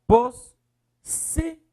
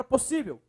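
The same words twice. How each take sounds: First: "Possível" in loud, high, widely separated syllables. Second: Said in the usual way. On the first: Shown as a demonstration. Teacher separating the word for students, "Possível" syllable by syllable. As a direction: break "Possível" into POS, SÍ, VEL. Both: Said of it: "Separe, por favor".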